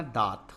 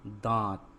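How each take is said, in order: First: दांत with a purely oral long aa, no nasal; दांत said as "daat"; missing nasal. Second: दांत with the long aa through the nose; दांत said as "daant", vowel nasalized. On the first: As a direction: drop the chandrabindu nasal from दांत. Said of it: "तो दांत तो होता नहीं". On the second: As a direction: put the chandrabindu nasal into दांत. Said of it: "तो क्या होता है". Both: Shown as a demonstration.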